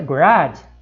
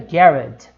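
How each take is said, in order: First: It is said in an American accent. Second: It is said in a British accent. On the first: "no inglês americano fica garage" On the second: "no inglês britânico fica garage"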